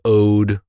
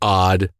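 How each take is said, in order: First: The vowel is long, rhyming with 'code'. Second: The vowel is short, rhyming with 'nod'. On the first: "I'm saying ode because it's only O and D" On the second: "not O D D"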